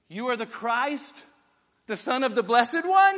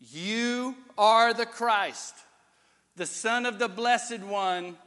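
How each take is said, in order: First: It is said with a questioning intonation. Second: It is said with a plain statement intonation. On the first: It asks whether the claim is true. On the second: It is a flat claim about identity.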